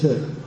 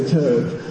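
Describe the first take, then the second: First: "chöd" short and simple, vowel not drawn out; proper pronunciation. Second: "chöd" with a drawn-out long o, like "chode"; East Tibetan pronunciation. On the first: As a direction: say "chöd" briefly, without the long "oh". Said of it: "the proper pronunciation is just chöd". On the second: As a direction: say "chöd" slowly, East Tibetan style, with an "oh" vowel. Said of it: "they say chöd". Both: Shown as a demonstration.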